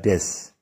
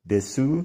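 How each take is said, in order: First: The final u is dropped. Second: The final u is clearly voiced.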